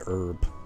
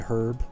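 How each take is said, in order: First: The word starts with a vowel, no h sound. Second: The word starts with a clear h sound. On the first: This is how Americans say it. "we don't. We just say herb" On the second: This is how British people say it. "like British people say herb"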